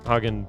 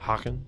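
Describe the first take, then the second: First: The first sound is a plain consonant. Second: The first sound is a rasping throat sound. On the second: "the G is pronounced differently in Dutch"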